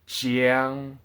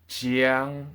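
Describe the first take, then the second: The two takes are said the same way.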